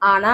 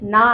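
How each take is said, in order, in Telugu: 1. అచ్చు శబ్దం హల్లుకు ముందు వస్తుంది. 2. హల్లు ముందు వస్తుంది, దానికి ముందు అచ్చు ఉండదు. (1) "వర్ణమాలలో అంటే లేదా అక్షరమాలలో చదివితే ఆనా అని పలుకుతాము" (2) "గుణింతంలో వస్తే నా అని పలుకుతాము"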